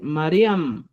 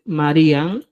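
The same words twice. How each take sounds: First: "Mariam" closed on the lips with M; new final M. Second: "Marian" ending in N, lips open; old final N. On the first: Teacher gives learners the replacement, "Mariam" ending in M. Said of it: "vas a decir Mariam". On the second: Teacher cites the form to replace, "Marian" ending in N. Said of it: "En vez de decir Marian". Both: Shown as a demonstration.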